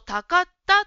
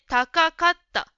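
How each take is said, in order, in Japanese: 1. 'ka'の音節が一つ足りません。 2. 'ka'の音節が二つとも言われています。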